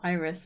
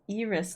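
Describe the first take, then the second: First: The name is pronounced with English sounds. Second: The name is pronounced with Spanish sounds. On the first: The speaker calls it wrong. "not Iris" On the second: The speaker calls it right. "That's Iris"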